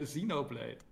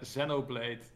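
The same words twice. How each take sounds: First: It is said with an American English pronunciation. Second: It is said with a British English pronunciation. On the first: "En de Amerikanen zeggen" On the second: "Net zoals de Engelsen zeggen"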